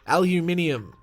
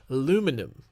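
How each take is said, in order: First: It is said the Australian way. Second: It is said the American way.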